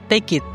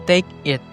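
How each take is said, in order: First: The k sound joins onto the next word. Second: The two words are said separately. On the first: "menggunakan tipe consonant to vowel" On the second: "kalau tanpa linking sound"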